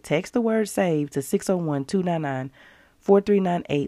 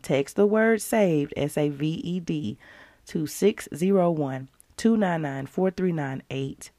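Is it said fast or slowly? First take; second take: fast; slowly. First: It is said at a faster pace. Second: It is said at a slower pace.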